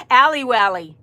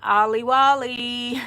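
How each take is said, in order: First: Allie Wally with a flat "a"; corrected name. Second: Drawn-out Ollie Wally; reading the name. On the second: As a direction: say Ollie Wally with an open "ah" vowel. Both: Shown as a demonstration. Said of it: "There's two L's in there".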